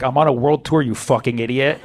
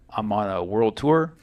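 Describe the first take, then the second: First: Lower-pitched mock irritation, talking down; annoyed celebrity. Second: Low, slow, subdued mock-celebrity answer; mildly annoyed star. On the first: Pop star talking down to an officer, annoyed. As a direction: imitate a star irked at being asked. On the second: Drunk pop star answering an officer, quietly annoyed. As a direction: imitate a reluctant star, dragging it out quietly. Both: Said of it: "he was even annoyed just saying that".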